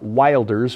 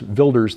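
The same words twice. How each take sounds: First: The name is read as its English spelling suggests. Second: The name is said in its actual pronunciation. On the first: "it's spelled like Wilders" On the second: "the pronunciation"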